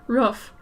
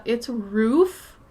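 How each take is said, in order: First: "Roof" with the short vowel of "book". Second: "roof" with a long oo as in "food"; long-vowel roof. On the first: Shown as a demonstration. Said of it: "I say roofs". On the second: Retold or imitated. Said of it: "I know people say".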